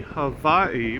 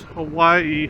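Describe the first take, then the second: First: Hawaii with a V sound, huh-VAI-ee; V pronunciation. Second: Hawaii with a W sound, huh-WAI-ee; W pronunciation. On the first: Rider comparing how people say it, Hawaii pronounced with a V. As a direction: say Hawaii with V in place of W. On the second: Rider comparing how people say it, Hawaii pronounced with a W. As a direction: say Hawaii with a rounded W. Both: Shown as a demonstration. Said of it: "people pronounce".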